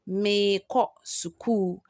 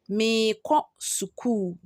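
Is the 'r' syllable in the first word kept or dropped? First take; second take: dropped; dropped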